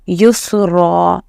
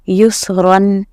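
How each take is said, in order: First: The word ends with a long a vowel. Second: The word ends with an n sound. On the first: The speaker calls it right. "सिर्फ एक ज़बर हटेगा और हम पढ़ेंगे रॉ अलिफ ज़बर रॉ" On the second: The speaker calls it wrong. "युसरन नहीं पढ़ना है"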